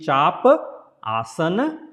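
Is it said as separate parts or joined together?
separate. The parts are said separately, one by one. "if you say one by one"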